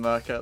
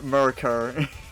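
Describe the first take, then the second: First: The name ends without an R sound. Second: The name ends with a strong R sound. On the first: The speaker calls it right. "I just call him Merca. It's fine. As long as you don't uh, pronounce the R uh, overly at the end" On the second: The speaker calls it wrong. "We've had a few Americans say Mer Mer Merker"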